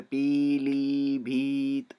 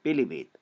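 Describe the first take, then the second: First: पीलीभीत with long drawn ई in both syllables; wrong long ee. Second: पीलीभीत with short इ sounds, quick and light. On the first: Teacher showing students the wrong पीलीभीत, long ई. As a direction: stretch the ई sounds in पीलीभीत, as it is not said. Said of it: "हमारे मुंह से पीलीभीत ऐसा नहीं होता है". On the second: Teacher showing students the right पीलीभीत, short इ. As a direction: say पीलीभीत with clipped short इ vowels. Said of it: "हम छोटी ई का उच्चारण करते हैं". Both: Shown as a demonstration.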